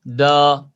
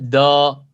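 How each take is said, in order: The two takes are said the same way.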